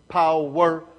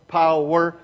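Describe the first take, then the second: No difference in how they are said.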